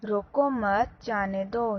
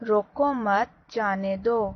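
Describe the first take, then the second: Both takes have the same delivery.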